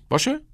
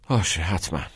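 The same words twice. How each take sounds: First: باشه؟ on a sharp high rise; باشه؟ asked with a steep upward lift; eager asking. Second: Indifferent. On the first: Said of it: "ساعت هشت تو اتاق من". (باشه؟ با لحن پرسشی و بالا رفتن شدید) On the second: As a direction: shrug off باشه، حتما without interest. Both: Acted.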